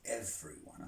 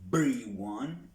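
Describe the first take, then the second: First: The middle consonant is a buzzing V sound. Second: The middle consonant is a plosive B sound. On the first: The speaker calls it right. "we got to make sure that we sound the V" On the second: The speaker calls it wrong. "We don't want to say everyone. It's not a plosive"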